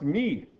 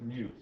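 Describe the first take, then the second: First: The vowel sounds like the 'ee' in 'see'. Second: The vowel sounds like the 'ew' in 'few'. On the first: This is the Greek way of saying it. "someone with Greek heritage that it's actually pronounced me" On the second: This is how scientists usually say it. "all the scientists pronounce it mu"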